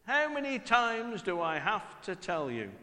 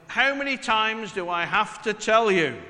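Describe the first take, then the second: First: The same "How many times do I have to tell you?" at normal volume, resigned; weary parent. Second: Loud, exasperated "How many times do I have to tell you?"; exasperated parent. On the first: Parent repeating the scold, resigned and weary. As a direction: drop the volume and let it sound tired. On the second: Parent scolding family, loud and exasperated. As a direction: raise it loud like a fed-up parent. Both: Retold or imitated. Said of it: "that immortal phrase".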